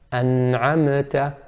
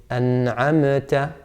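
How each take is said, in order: The two takes are said the same way.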